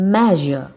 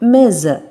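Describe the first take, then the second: First: The middle consonant is a voiced buzzing zh. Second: The middle consonant is a hissing s sound. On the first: The speaker calls it right. "you should pronounce the S letter here as Z" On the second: The speaker calls it wrong. "ஸ் sound மெஷர் ... which is wrong"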